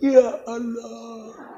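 It sounds sad and sorrowful.

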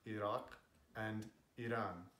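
The names are said with Arabic and Persian pronunciation. "In Arabic and Persian respectively"

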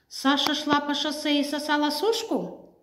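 It is said as a question, rising. "Вопросительно"

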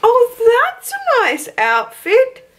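It is said with sassy flair.

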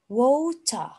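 It is said in a British accent. "The British accent"

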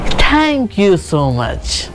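It sounds cheerful and bright. The speaker is glad. "देखा एक happy tone आया"

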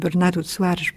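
The name is pronounced the Portuguese way.

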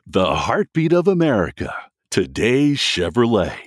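It is said in a different voice register.

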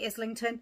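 The name is said the British way. "the UK say Islington"

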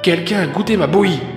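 It is said in a medium voice.

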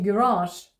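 It is said with the American stress pattern. "а це американський варіант"

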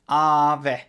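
It is said the Finnish way, long first vowel.

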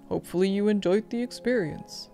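It is read in a put-on imitating voice.

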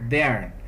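The final R sound is strongly pronounced. "O americano é muito característico o R acentuado"

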